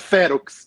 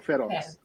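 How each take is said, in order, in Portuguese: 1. A sílaba tônica é a primeira. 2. A sílaba tônica é a última. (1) "em latim supostamente não existem oxítonas. Então é ferox" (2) "não ferox"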